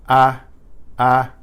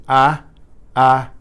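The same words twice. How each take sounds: No difference in how they are said.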